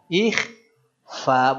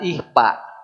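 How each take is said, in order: First: It is said with a 'kh' and an 'f' sound. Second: It is said with an 'h' and a 'p' sound. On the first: The speaker calls it right. "Ikhfa bukan ihpa" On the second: The speaker calls it wrong. "bukan ihpa"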